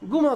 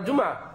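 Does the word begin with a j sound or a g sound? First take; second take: g sound; j sound. First: It begins with a g sound, Egyptian style. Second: It begins with a j sound, standard Arabic.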